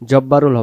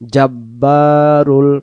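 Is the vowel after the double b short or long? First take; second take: short; long. First: The vowel after the double b is short. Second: The vowel after the double b is long. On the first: The speaker calls it wrong. "জব্বারুল হবে না" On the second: The speaker calls it right. "বাইরের জবরকে আমরা এক আলিফ টানবো"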